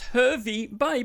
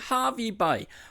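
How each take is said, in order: First: The first syllable rhymes with 'her'. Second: The first syllable rhymes with 'car'. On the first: This is how it looks from the spelling. The speaker calls it wrong. "most of you would say" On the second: This is how the locals say it. The speaker calls it right. "the locals say Harvey Bay"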